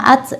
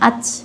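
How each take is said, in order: First: The final consonant has only a slight hiss. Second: The final consonant has a heavy, exaggerated hiss. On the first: The speaker calls it right. "sederhana saja, desisnya itu sedikit saja" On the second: The speaker calls it wrong. "jadi berlebihan"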